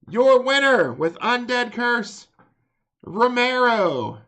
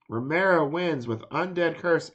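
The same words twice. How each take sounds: First: Loud, slow, high announcer call; ring announcer shout. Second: Said in the usual way. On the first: Acted. Announcing the match winner.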